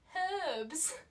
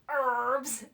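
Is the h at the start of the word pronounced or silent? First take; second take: pronounced; silent. First: The word starts with a clear h sound. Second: The word starts without an h sound. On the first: The written h should be said. "There's an H in there" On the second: This is how Americans say it. "because Americans say herbs"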